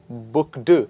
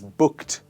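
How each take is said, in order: First: The ending is said as 'ed', not 't'. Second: The ending is said as a 't' sound. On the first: The speaker calls it wrong. "It is not booked" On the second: The speaker calls it right. "the ed here is pronounced as ter"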